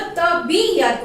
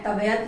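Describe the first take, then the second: First: तबीयत said with a clear long ee, ta-bee-yat; the correct तबीयत shown to children; correct pronunciation. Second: तबयत said in three syllables, ta-ba-yat, with no ee; the misspelled तबयत sounded out plainly; wrong spelling said aloud. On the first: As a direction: give तबीयत its full ee sound as the correct form. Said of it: "तबीयत होता है". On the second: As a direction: read out तबयत as the wrong form. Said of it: "तबयत नहीं होता". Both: Shown as a demonstration.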